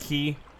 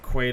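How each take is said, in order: First: The word rhymes with 'see', without a w sound. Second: The word begins with a kw sound, like 'kway'. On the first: "it's pronounced key?" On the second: "I'm gonna pronounce it Quay to piss people off"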